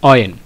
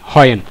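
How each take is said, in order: First: The word starts with a vowel sound. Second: The word starts with an h sound. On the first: The speaker calls it right. "শব্দটার উচ্চারণটা হবে অ, স্বর দিয়ে" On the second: The speaker calls it wrong. "বাংলা হয়ের মতো প্রথমে হ উচ্চারণ করি"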